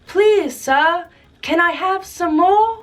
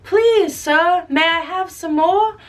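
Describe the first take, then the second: First: Put-on higher, slow pleading boy; lightly voiced timid boy; polite little orphan. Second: Put-on higher, pleading boy; a hint of a timid child; polite orphan. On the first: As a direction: ask meekly like a hungry orphan. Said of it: "he goes". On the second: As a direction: beg sweetly for more. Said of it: "some people remember it".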